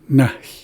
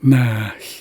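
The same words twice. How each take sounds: First: The word is said quickly. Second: The word is said more slowly. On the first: "I've heard it said really quickly like that" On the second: "sometimes I hear it said a little bit slower"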